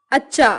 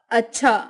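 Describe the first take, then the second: First: Unaspirated CH in अच्छा; southern pronunciation. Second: Said in the usual way. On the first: Shown as a demonstration. Teacher showing South Indian speech, अच्छा without aspiration. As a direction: say अच्छा as "accha" with no puff of air. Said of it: "दक्षिणी उच्चारण". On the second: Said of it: "Hindi उच्चारण".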